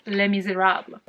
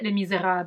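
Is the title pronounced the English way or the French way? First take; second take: English; French. First: The title is pronounced the English way. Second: The title is pronounced the French way.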